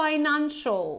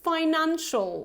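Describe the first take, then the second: The two takes are said the same way.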